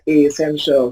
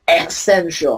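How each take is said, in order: First: Essential said the right way, weak first vowel; correct pronunciation. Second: Essential said with a full stressed first vowel, wrong; mock wrong essential; wrong pronunciation. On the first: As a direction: model essential. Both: Shown as a demonstration. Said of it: "chứ không phải là essential".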